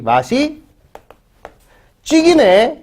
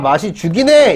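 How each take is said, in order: First: The verb's vowel is fronted before the i sound. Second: The verb keeps its plain back vowel. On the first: "이렇게 바뀌는 것처럼 사투리에서 자주 발견이 된다" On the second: "이게 어떻게 바뀌어요?"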